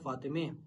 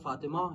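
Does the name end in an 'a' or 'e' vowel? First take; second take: e; a. First: The name ends with an 'e' vowel. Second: The name ends with an open 'a' vowel. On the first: "यहाँ पर उसको थोड़ा ज़ेर के साथ पढ़ दिया जाता है" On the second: "जैसे हम कहेंगे फातिमा"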